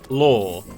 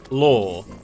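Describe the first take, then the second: First: The word is said like 'lore'. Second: The same.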